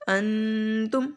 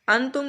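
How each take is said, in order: First: The n is held as a full nasal sound. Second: The n sound is said fully and clearly. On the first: "अगर गुन्ना करते हैं तो नाक में मांस लेकर जाते हैं" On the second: "इसको अंतुम नहीं पढ़ना"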